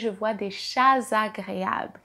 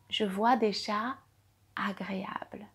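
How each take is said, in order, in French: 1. Un son Z lie chats à agréables. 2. Chats et agréables se disent sans Z de liaison.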